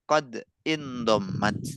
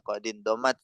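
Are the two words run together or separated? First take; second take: separated; run together. First: The two words are said separately. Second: The two words are run together, linked.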